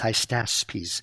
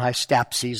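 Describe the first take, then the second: First: The s sound comes before the p sound. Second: The p sound comes before the s sound. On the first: The speaker calls it right. "it's Hystaspes" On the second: The speaker calls it wrong. "not Hystapses like I keep mispronouncing"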